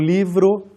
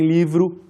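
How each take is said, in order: First: The final vowel sounds like O. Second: The final vowel sounds like U.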